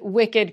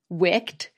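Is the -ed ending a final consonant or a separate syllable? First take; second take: separate syllable; final consonant. First: The -ed ending is a separate syllable. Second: The -ed ending is only a final consonant. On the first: "has the same unusual pronunciation of the suffix ed" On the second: "If these words were pronounced like most English words ending in ed"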